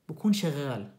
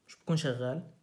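First: Said in the usual way. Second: بكون شغال asked as a question, rising at the end; questioning rise. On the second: Shown as a demonstration. Teacher quizzing students on whether it conducts, questioning rise. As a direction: rise on شغال to check the class.

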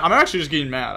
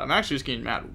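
First: Louder, exasperated complaint; frustrated outburst. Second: Said in the usual way. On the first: Real, not acted. Streamer admitting to chat he is tilted, loud and exasperated. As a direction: vent it, loud and fed up. Streamer fuming at own misplays.

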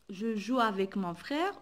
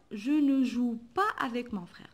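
First: Said in the usual way. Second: Pas leaned on as the negative marker; teacher marking "pas" in the negative sentence; stress on pas. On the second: Shown as a demonstration. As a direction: lean into "pas" to show the negation. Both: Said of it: "ne pas, ça veut dire non".

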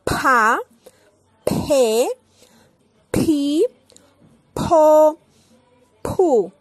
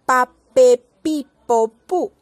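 First: Pa pe pi po pu mouth open with big puffs of air, louder; aspirated P. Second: Pa pe pi po pu with no air; Spanish P. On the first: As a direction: blow air out on every P. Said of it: "Muy abierta la boca con mucho aire". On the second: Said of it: "en español". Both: Shown as a demonstration.

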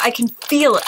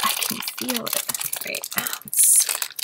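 First: Said in the usual way. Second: "I can feel it" breathed out as a secret whisper. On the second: Real, not acted. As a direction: whisper it like you're sure of a rare. Repeats phrase, second whispered.

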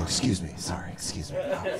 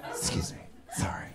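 First: Soft, embarrassed mumbled excuse me; sheepish apology. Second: Breathy whisper of excuse me; whispered apology. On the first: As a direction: slip past people apologizing softly. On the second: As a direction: whisper sorry as you squeeze by. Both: Retold or imitated. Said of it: "You just go".

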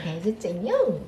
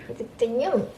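First: Lisped 해줬쟁용, falling; slushy sh for s. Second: Lisped 해줬쟁용 to the dog; slushy sh for s. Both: Real, not acted. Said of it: "혀 짧은 소리를 해요".

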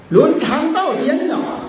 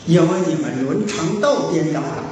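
First: 伦常道颠倒了 repeated higher, every word pressed; emphatic repeat. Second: Said in the usual way. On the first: Shown as a demonstration. (重复强调“伦常道颠倒了”，声调更高)

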